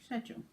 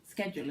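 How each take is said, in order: First: It is pronounced the British way. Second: It is pronounced the American way. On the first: "because that's the British way of saying it" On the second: "is the American way of saying it"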